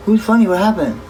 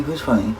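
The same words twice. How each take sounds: First: High, loud, startled question; surprised. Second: Said in the usual way. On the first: Real, not acted. Asking the chat who's funny, louder and higher in surprise.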